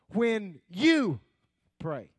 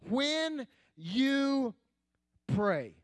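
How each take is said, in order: First: The word "you" is stressed. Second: It is read plainly with no special stress.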